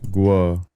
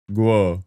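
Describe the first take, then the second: First: The name has a w-glide, like 'gwo'. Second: The same.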